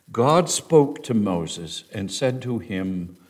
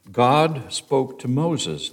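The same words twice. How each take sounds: First: "God" weighted again, read slowly; slow read leaning on "God" at the start; stress on God. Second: "God" hit first and held, the line read slowly; stress on God. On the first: Teacher reading verse aloud, leaning on God. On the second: Teacher pointing out the word God, slow stress. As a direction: land on "God" and let the rest follow slowly. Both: Shown as a demonstration. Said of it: "it's not Lord this time, but God".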